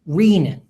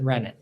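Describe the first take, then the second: First: The first syllable has a long 'ee' vowel. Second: The first syllable has a short 'e' vowel. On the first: This is how the speaker thinks it should be said. "should really ... be pronounced renin" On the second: This is how most people say it. "everybody pronounces it renin"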